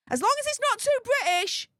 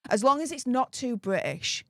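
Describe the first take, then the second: First: "too British" pitched much higher, mocking; emphatic repeat. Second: Said in the usual way. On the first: Shown as a demonstration. Mocking the university's rule, higher and emphatic. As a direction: hit "too" high and hard on the repeat.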